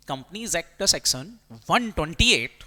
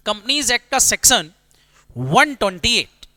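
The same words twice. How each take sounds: First: Said in the usual way. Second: Stamp the section number into their memory; emphatic. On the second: Shown as a demonstration. Teacher stresses section number. (Section number पर ज़ोर देकर, धीमे और ऊँचे स्वर में)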